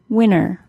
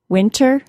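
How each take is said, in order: First: The T sound after the N is dropped. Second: The T sound after the N is pronounced. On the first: "and without" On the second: "with a T sound"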